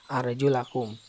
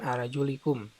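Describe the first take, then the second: First: The vowel after the L is an 'a'. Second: The vowel after the L is an 'i'. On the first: The feet are to be washed. "dengan lam yang dinasob dengan fathah" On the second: The feet are to be wiped. "dengan lam yang dibaca jar dengan kasroh"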